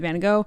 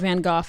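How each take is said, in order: First: The name is said the common everyday way. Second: The name is said the fancy art-world way.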